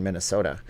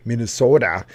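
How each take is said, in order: First: Said in the usual way. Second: Hammed-up Minnesota accent on MINNESOTA, louder with a long O. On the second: Shown as a demonstration. Streamer playfully echoing the state name, mock Minnesota accent on MINNESOTA. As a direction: stretch the O in MINNESOTA like a Minnesota local.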